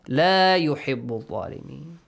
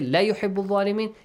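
First: The vowel in la is held long. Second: The vowel in la is short. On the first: God does not love the wrongdoers. The speaker calls it right. "we have to pronounce it with alif mad" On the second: God surely loves the wrongdoers. The speaker calls it wrong. "it changes the meaning"

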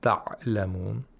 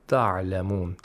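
First: The ain is stopped with a plosive release. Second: The ain is intermediate, neither stopped nor fricative. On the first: The speaker calls it wrong. "Neither plosives" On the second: The speaker calls it right. "without قَلْقَلَة and with توسط"

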